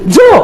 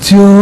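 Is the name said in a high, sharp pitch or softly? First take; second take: high; soft. First: It is said loudly at a high pitch. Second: It is said softly at a low pitch. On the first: It sounds angry to some listeners. "orang Sulawesi yang panggil jadi Jo" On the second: It sounds gentle and polite. "Kalau orang Solo yang panggil kan Jo"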